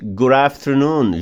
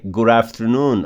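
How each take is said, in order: First: "Good afternoon." with the D turned to a tapped R into the A; linked pronunciation. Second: "Good afternoon." said "goo-rafternoon" with a tapped R; linked pronunciation. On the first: Teacher showing students the D-to-R link, slowly. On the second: Teacher repeating the linked form for students. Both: Shown as a demonstration. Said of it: "Junto o D no A com som de R".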